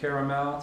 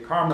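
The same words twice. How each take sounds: First: It is said with a Canadian pronunciation. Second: It is said with an American regional pronunciation.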